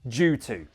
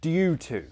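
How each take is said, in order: First: It is said in a casual, everyday way. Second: It is said in a posh, careful RP way. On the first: "that sounds more casual, more normal" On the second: "that sounds more posh"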